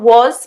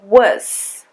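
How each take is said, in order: First: The word is said in its full, strong form. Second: The word is said in a reduced, weak form. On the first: The speaker calls it wrong. "It's not was" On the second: The speaker calls it right. "but was"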